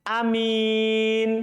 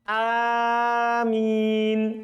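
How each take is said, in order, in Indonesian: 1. Vokal pertama pendek, m tunggal, vokal biasa. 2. Vokal pertama panjang, m tunggal, vokal biasa. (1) "hamzanya pendek dan mimnya tidak ditasdid" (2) "Mimnya enggak tasdid. ... Hanya panjang"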